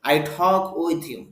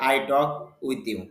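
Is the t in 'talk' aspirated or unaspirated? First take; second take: aspirated; unaspirated. First: The t is said with a puff of air. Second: The t is said without a puff of air. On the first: The speaker calls it right. "এই জন্য শুদ্ধভাবে উচ্চারণ শিখতে হবে" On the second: The speaker calls it wrong. "আমি যদি এভাবে বলি ... উচ্চারণটাই কেমন শোনা যায়"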